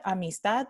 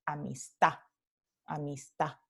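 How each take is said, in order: First: Said in the usual way. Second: "amistad" as a-mis-TÁ, no final D; dropped final D. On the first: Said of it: "no se va a pronunciar amistad". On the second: Shown as a demonstration. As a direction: end "amistad" on an open stressed a. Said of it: "la D al final de la palabra se elide".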